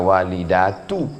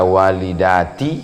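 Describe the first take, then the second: First: The word ends with a 'u' vowel. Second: The word ends with an 'i' vowel. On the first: The speaker calls it right. "bisa dibaca walidatu" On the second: The speaker calls it wrong. "Bisa dibaca walidati"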